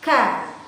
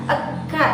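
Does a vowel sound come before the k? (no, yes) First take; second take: no; yes. First: The k sound starts directly, no vowel before. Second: A vowel sound comes before the k sound. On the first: The speaker calls it right. "disitulah huruf kaf dikeluarkan" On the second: The speaker calls it wrong. "tidak seperti itu. Itu adalah hal yang salah"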